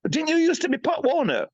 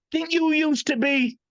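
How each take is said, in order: First: A much higher, teasing fan voice; mock fan voice. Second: A much higher, teasing voice for the fans; mock fan voice. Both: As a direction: pitch it way up, mocking the people who ask. Quoting people who meet him.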